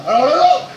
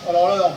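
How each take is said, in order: First: The same words pushed much louder, rising on non; louder refusal. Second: Said in the usual way. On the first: Real, not acted. Streamer refusing his dino's move again, louder shout. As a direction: repeat it, now shouting the refusal.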